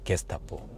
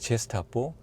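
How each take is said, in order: First: It begins with a hard g sound. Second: It begins with a soft zh sound. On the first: The Nazi secret police. "독일어에서는 G를 게로 발음하니까" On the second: A gesture toward the skin. "프랑스어에서는 G를 제라고 발음하니까"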